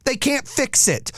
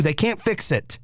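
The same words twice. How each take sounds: First: "They can't fix it" slower and higher, leaning hard on "can't"; emphatic repeat. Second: Said in the usual way. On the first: Shown as a demonstration. To listeners on apologies, stressing "can't" slowly and higher. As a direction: hammer home "can't", slowly.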